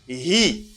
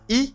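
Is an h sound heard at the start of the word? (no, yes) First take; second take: yes; no. First: The word begins with an audible h sound. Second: The word begins with a vowel, no h. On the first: The speaker calls it right. "you stress the H" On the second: The speaker calls it wrong. "not E"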